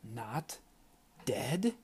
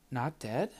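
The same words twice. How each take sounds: First: Hissed. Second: Said in the usual way. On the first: A narrator's reading. Ayanna hissing at Tristan for hiding it, soft and angry. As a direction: spit it through your teeth, barely voiced. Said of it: "she hissed". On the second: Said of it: "Chestnut asked".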